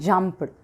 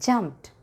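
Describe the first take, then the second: First: The ending is not a t sound. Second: The ending is a t sound. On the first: The speaker calls it wrong. "not jumped" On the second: The speaker calls it right. "Ed should be pronounced as t sound"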